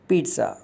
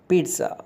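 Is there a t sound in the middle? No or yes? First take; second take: yes; yes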